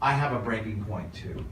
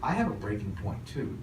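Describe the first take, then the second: First: It sounds closed, like a presented line. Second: It sounds open, with the voice going up. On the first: The line is performed rather than meant. The speaker calls it wrong. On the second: The speaker is really connecting with the listener. The speaker calls it right.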